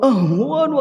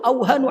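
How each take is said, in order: First: A strong h sound comes before the w sound. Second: The h sound comes after the w sound. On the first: The speaker calls it right. "kok melengking banget haknya" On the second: The speaker calls it wrong. "Ana hafalnya bukan ahwan tapi auhanu alaihi"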